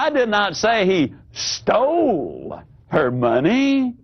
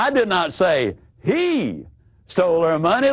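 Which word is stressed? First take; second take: stole; he. First: The word stole carries the stress. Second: The word he carries the stress.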